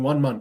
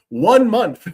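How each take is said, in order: First: The phrase is said without special emphasis. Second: The phrase is said with strong emphasis. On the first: The speaker calls it wrong. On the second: The speaker calls it right.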